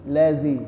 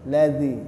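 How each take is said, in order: The two takes are said the same way.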